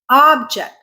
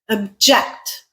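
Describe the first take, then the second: First: The stress is on the first syllable. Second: The stress is on the second syllable. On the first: It is a noun. "when you say it that way, it becomes a noun" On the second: It is a verb. "object is a verb"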